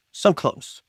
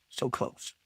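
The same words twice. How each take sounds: First: Said in the usual way. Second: Breathy whisper, almost to self. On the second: Real, not acted. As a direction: let it slip out under the breath. Near miss, repeats under breath.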